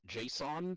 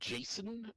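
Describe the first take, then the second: First: It sounds different from the name Jason. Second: It sounds just like the name Jason. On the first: "others pronounce it JSON" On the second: "pronounced by many as Jason"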